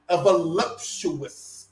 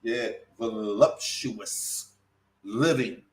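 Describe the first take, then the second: First: Stretched-out voluptuous, savoured slowly; drawn out. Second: Voluptuous drawn out very slowly, softer; said again slowly. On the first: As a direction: linger on voluptuous. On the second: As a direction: repeat voluptuous at a crawl. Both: Shown as a demonstration. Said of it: "Let me say that again slowly".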